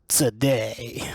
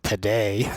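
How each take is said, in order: First: The t has a hissing s sound after it. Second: The t is a plain, clean t sound. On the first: "their T sounds with the added S" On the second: "when they sound like today"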